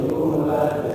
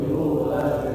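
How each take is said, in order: The two takes are said the same way.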